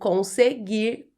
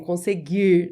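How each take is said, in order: First: The final R sound is clearly pronounced. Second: The final R sound is dropped. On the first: "quando eu preciso marcar esse R no final, fica muito engraçado" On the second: "Meu sotaque é assim"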